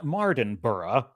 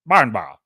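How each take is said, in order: First: The name is said with an American accent. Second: The name is said with a British accent. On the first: "in the American way, I would say" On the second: "is how the British would say it"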